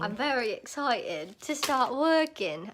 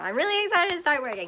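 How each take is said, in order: First: It is said in a British accent. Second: It is said in her own American accent.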